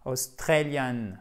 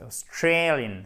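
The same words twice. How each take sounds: First: "Australian" with a flat eh instead of ay; wrong French-style pronunciation. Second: "Australian" with a stressed gliding ay on STRAY; correct English pronunciation. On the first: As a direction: say "Australian" with full French vowels, no diphthong. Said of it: "C'est pas Australian". (« Australian » mal prononcé, à la française, sans diphtongue) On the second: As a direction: reduce the start of "Australian", stretch the ay. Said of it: "Non, c'est Australian". (« Australian » bien prononcé, accent sur « strey ») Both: Shown as a demonstration.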